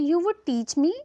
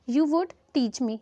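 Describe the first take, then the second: First: Said in the usual way. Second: Very slow, each word spelled out; slow dictation. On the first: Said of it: "तो उसे English में क्या बोलेंगे?". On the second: Shown as a demonstration. Teacher reads the English half slowly to students. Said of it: "पहले तो आप इसका half देखिए".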